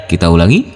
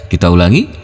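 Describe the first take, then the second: No difference in how they are said.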